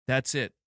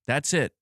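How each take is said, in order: Both takes have the same delivery.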